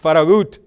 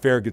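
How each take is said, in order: First: The name is said with a Spanish pronunciation. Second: The name is said with an English pronunciation. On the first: The speaker calls it right. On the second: The speaker calls it wrong. "It's not Farragut Station"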